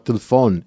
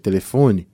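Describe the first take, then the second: First: The unstressed vowels are cut short or dropped. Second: All the vowels are pronounced fully and clearly. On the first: This is how African and European Portuguese speakers say it. "do corte das vogais, de falar telefone" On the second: This is how Brazilian Portuguese speakers say it. "em vez de telefone"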